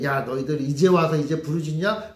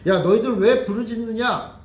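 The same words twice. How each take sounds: First: Offhand, unimpressed quote; indifferent. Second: Louder, higher scolding rebuke; scolding prophet. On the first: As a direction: say it with a shrug, mildly dismissive. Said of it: "시큰둥하게 얘기했죠". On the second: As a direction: scold them like a stern prophet. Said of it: "혼내는 걸로". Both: Retold or imitated.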